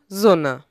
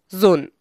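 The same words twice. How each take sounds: First: "Sunne" with short u and final e; Middle High German pronunciation. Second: "Sunn" with a short u and no final e; Palatinate pronunciation. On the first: Narrator giving the old word for sun, "Sunne" in Middle High German. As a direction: say "Sunne" in two syllables, ending on an unstressed e. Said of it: "im Mittelhochdeutschen". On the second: Narrator giving the dialect word for sun, "Sunn" in Pfälzisch. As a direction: say "Sunn" as one syllable, Palatinate-style. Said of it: "Im Pfälzischen heißt es". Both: Shown as a demonstration.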